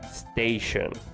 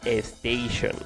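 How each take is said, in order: First: The word starts directly with the s sound. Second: An extra e vowel is added before the s. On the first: The speaker calls it right. "please pay attention to the way I'm pronouncing the second word" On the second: The speaker calls it wrong. "some people say a station, but there's not an E"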